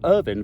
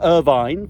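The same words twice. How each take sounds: First: The name is said the British way. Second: The name is said the American way. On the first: "for you living in Britain" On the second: "for you living in America"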